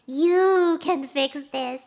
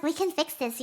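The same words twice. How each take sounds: First: Loud, drawn-out You thrown back at the listener; slow retort with heavy weight on You; stress on You. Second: Said in the usual way. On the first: Retold or imitated. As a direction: lean hard and long on You. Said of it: "And then Jimmy goes". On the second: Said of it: "he was like".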